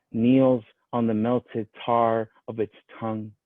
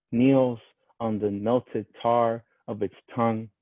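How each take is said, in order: No difference in how they are said.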